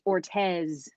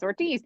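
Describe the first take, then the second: First: The last syllable has an 'eh' vowel. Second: The last syllable has an 'ee' vowel. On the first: This is how the name is said locally in that city. "apparently in Fort Myers, it's Ortez" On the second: This is how the name was said where the speaker grew up. "to me, that's Ortiz. I mean, that's how we grew up"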